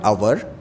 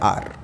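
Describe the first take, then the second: First: It is said as two syllables, like 'ow-er'. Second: It is said as one syllable, like 'ar'. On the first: The speaker calls it wrong. "It is not आवर" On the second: The speaker calls it right. "इसका sound होता है आर"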